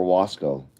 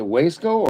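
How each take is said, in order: First: Wasco as WAHS-koh, open AH; second pronunciation option. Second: Wasco as WAYS-koh, long A; first pronunciation option. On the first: Asking viewers which is correct, Wasco offered as WAHS-koh. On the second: Asking viewers which is correct, Wasco offered as WAYS-koh. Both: Shown as a demonstration. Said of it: "wanna pronounce these things".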